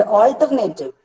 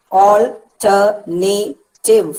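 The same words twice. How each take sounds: First: Said in the usual way. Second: "alternative" very slowly as al, ter, na, tive; syllable by syllable. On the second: Shown as a demonstration. Teacher counting four syllables for students, syllable by syllable. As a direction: split "alternative" into four separated beats. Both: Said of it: "four syllables".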